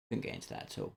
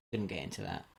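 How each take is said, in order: First: Hushed whispered aside; whispering. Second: Said in the usual way. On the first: Shown as a demonstration. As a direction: drop to a breathy whisper. Repeats the line, then whispers it.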